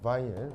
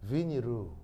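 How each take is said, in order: First: It is said as bainíl, without added vowels. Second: It is said as biniru, with added vowels. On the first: This is the standard form of the term. The speaker calls it right. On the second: This is the Japanese way of saying the word. The speaker calls it wrong. "이 바이닐 이 일본 사람 발음이 안 돼요. 그래서 비니루"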